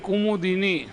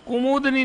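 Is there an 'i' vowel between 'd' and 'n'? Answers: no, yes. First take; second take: yes; no. First: An 'i' vowel is heard between 'd' and 'n'. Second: No vowel is heard between 'd' and 'n'. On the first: The speaker calls it right. "ये सही है" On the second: The speaker calls it wrong. "कुमुदनी नहीं होता है"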